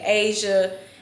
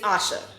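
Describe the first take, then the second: First: The first vowel is not an 'uh' sound. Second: The first vowel is an 'uh' sound. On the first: The speaker calls it wrong. "people mess my name up all the time" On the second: The speaker calls it right. "the correct pronunciation of my name is Asha. The letter A makes the uh sound"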